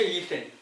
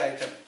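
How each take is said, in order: First: The word begins with an 'ee' sound. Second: The word begins with an 'ai' sound. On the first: "이걸 그냥 소리 나는 이텐이죠" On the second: "이거 우리 아이템이라고 하죠"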